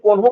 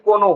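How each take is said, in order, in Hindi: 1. बीच वाली n ध्वनि साँस वाली है, जैसे n के साथ h। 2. बीच वाली n ध्वनि सादी है, उसमें कोई साँस नहीं। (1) "कोन्हो हम लोग क्या बोलते हैं कभी कभी ना कोन्हो बोलते हैं" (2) "इसीलिए इसको हम लोग डायरेक्ट बोलते हैं"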